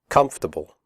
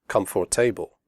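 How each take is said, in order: First: The word has three syllables. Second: The word has four syllables. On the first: The speaker calls it right. "three syllables, We say comfortable" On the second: The speaker calls it wrong. "not four, not comfortable"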